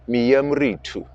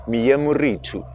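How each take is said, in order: First: The middle syllable 'ri' is fully pronounced. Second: The middle syllable 'ri' is fully pronounced.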